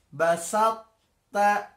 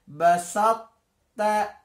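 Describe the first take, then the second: No difference in how they are said.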